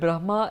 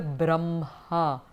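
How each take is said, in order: First: The h sound comes before the m. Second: The h sound comes after the m. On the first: "the word Brahma" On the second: "traditionally, the word Brahma is pronounced as the Brahma"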